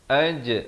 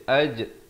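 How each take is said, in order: The two takes are said the same way.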